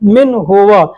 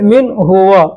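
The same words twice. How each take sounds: Both takes have the same delivery.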